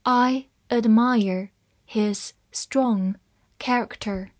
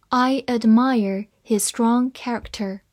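First: Slow, word by word with small gaps; measured dictation pace; slow reading. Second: Said in the usual way. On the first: Shown as a demonstration. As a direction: read it slowly for learners, each word separate. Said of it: "好，慢慢来读". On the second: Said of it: "慢慢来读".

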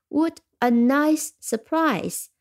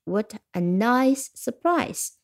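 First: Slow, higher What a nice surprise, What stressed; delighted exclamation. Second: Mild delighted exclamation. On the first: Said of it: "我们听几个例句". (放慢、提高音调，惊喜地感叹) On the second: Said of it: "这是一个感叹句". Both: Shown as a demonstration.

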